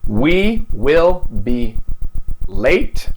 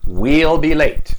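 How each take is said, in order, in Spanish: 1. 'Will' se dice como una palabra completa y separada. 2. 'Will' se acorta y se une al pronombre.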